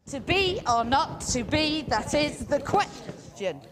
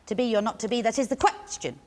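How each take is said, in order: First: Slow, high chant landing hard on "be", "not" and "question"; exaggerated da-DUM verse rhythm; galloped iambic rhythm. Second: Said in the usual way. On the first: Shown as a demonstration. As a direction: pound the beat, leaving "question" with a dangling last syllable. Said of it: "got an extra little beat". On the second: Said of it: "extra little beat on the end".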